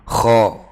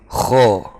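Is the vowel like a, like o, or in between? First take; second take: in between; in between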